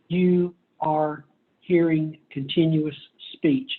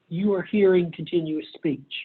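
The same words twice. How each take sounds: First: There is a pause between each word. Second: The words run together without pauses. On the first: "If I put pauses between each word" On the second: "When you listen to me now, you are hearing continuous speech"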